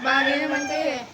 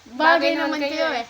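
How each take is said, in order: First: It is said in a sad tone. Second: It is said in an angry tone.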